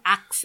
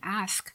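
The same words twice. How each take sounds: First: It is said with her Guyanese accent. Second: It is said with a standard pronunciation.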